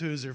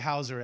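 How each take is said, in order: First: The first vowel sounds like 'oo'. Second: The first vowel sounds like 'ow'. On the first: This is how the family says the name. The speaker calls it right. "They'll all know it's Hooser from here on out" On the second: This is the common mistaken pronunciation. The speaker calls it wrong. "I bet nobody calls you Hauser after this anymore"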